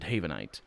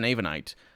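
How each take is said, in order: First: The word starts with an H sound. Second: The word starts without an H sound. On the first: The speaker calls it right. "which is how I should pronounce it" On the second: The speaker calls it wrong. "I drop the H"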